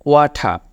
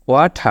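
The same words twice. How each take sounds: First: ওয়াঠা said as "wah-thah", no final r; ওয়াঠা sounded out for the learner, r dropped; pronounced wah-thah. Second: ওয়াঠা repeated with a long final "aa" and a lift at the end; pronounced wah-thah. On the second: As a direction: stretch the last vowel of ওয়াঠা, no r. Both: Shown as a demonstration. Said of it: "এখানে উচ্চারণটা হবে".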